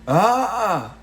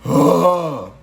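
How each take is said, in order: First: The yell is pushed from the throat. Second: The yell is supported from the diaphragm.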